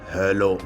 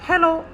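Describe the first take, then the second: First: It is said in a thick, deep voice. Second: It is said in a thin, high voice.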